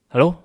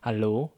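First: It is said heavily and hurriedly. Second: It is said softly and calmly.

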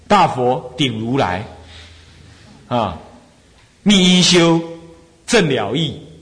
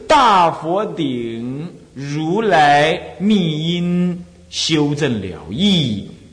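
First: The phrase breaks with a pause after rulai. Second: The phrase runs on without a pause after rulai. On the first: The speaker calls it wrong. "你这样念断了" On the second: The speaker calls it right. "要这么念法啊"

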